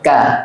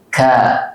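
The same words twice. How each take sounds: First: The k is released without an audible puff of breath. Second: The k is released with an audible puff of breath. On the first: "ketika berharokat hamsnya nggak ada" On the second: "Ada hamsnya"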